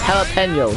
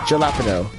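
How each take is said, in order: First: The first sound is a soft H. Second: The first sound is a hard J. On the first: The speaker calls it right. "remember, it's jalapeno" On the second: The speaker calls it wrong. "not jalapeno"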